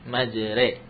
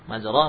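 First: The r is followed by an e-like vowel. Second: The r is followed by a full open a. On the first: "dimiringkan ke dalam kepada kasrah" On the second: "huruf ra yang maftuh"

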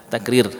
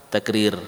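The two takes are said the same way.

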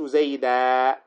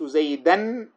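First: The word ends without an n sound. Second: The word ends with an n sound. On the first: The speaker stops after this word. "لأنك وقفت عليه" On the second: The speech continues after this word. "لاحظ زيدا في نون"

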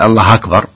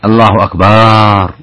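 First: The final r carries an a vowel. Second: The vowel after the b is lengthened. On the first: The meaning is unchanged. "فتح" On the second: It turns the word into drums. "أو مد الباء"

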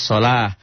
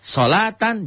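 First: The word ends with a soft 'h' sound. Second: The word ends with a 'tan' sound. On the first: The reading stops on this word. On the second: The reading continues without stopping.

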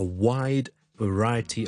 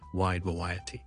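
First: The first word has W, the second V. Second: Both words begin with a W sound. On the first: The speaker calls it right. "我哋第一个系W wide，第二个系V sound" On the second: The speaker calls it wrong. "如果我哋三个咧都读成我哋广东话有嘅W sound 就变咗wide variety"

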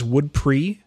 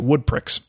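First: The name ends with a 'pree' sound. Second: The name ends with a 'pricks' sound.

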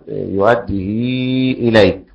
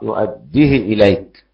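First: The h is followed by a long i vowel. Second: The h is followed by a short i vowel. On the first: "فالذي يقرأ بالصلة" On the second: "أما اللي بيقصر"

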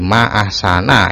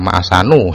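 First: The word ends with an open 'a' vowel. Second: The word ends with a rounded 'u' vowel. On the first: It expresses wonder at something. The speaker calls it right. "Jadi ma'asana itu kan terbuka" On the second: It asks a question. The speaker calls it wrong. "Kalau ma'asanu itu kan tidak terbuka"

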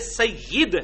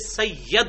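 First: The second syllable has an 'i' vowel. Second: The second syllable has an 'a' vowel. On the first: A master or chief. "ہمارے سید ہیں، ہمارے آقا سردار" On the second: The one who is led by the master. "ہم آپ صلی اللہ علیہ وسلم کے سید ہیں زبر سے"

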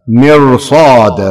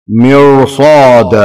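Both takes have the same delivery.

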